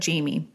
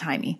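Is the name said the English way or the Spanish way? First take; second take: English; Spanish. First: The name is said as English Jamie. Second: The name is said with a Spanish pronunciation. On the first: The speaker calls it wrong. "So it looks like Jamie" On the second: The speaker calls it right. "It's pronounced Jaime"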